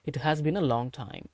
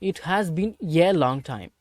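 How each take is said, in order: First: The word 'a' is reduced and linked on. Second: The word 'a' is a full separate 'ay'. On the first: The speaker calls it right. "பீன் அப்படின்னு சேர்த்து வச்சிருக்கணும்" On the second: The speaker calls it wrong. "அப்படிலாம் பேசக்கூடாது"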